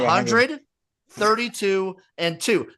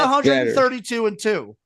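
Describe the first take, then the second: First: The numbers are separated by pauses. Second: The numbers run together without pauses. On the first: It means one hundred wins, thirty-two losses and two ties. The speaker calls it right. "I was spacing them out" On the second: It means one hundred thirty-two wins and two losses. The speaker calls it wrong. "I was not saying it like that"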